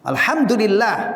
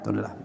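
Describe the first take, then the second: First: It is said slowly and clearly. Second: It is said quickly and rushed. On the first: The speaker calls it right. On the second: The speaker calls it wrong.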